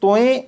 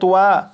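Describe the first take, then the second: First: The vowel glides into an 'e' at the end. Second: The vowel is a gliding 'ua' sound. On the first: "तोए या तुआ नहीं पढ़ेंगे" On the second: "तोए या तुआ नहीं पढ़ेंगे"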